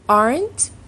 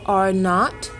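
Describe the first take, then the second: First: It is said as one short contracted word. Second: It is said as two full separate words.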